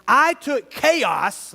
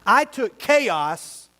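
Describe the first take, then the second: First: I took chaos, drawn out very slowly and louder; slow, weighty declaration; slow emphatic. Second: I took chaos, each word stretched out slowly; deliberate, weighty repeat; slow emphatic. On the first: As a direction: lean on every word of I took chaos. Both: Shown as a demonstration. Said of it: "listen carefully 'cause this is the last point".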